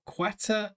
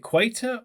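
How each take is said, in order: First: "Quater" said as KWET-uh; mispronounced "Quater", first vowel as in "wet"; alternative pronunciation. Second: "Quater" said as KWAY-tuh; mispronounced "Quater", first vowel as in "wait"; unsure pronunciation. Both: Shown as a demonstration. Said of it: "am I saying that wrong".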